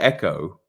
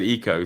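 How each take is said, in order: First: The first vowel sounds like in 'bed'. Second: The first vowel sounds like in 'see'. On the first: This is the speaker's usual way of saying it. "I always say echo" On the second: This is how someone else said it. "you said eco"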